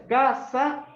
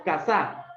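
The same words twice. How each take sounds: First: "Casa" drawn out with a strong high CA; stress on first syllable. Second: "casa" turned into ca-SÁ; stress on last syllable. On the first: Teacher asking González to choose, "Casa" stressed on CA. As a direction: lean hard on the CA of "Casa". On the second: Teacher giving González the second choice, "casa" stressed on SA. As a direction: land the force on the final sa of "casa". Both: Shown as a demonstration. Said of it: "¿Primera o segunda?".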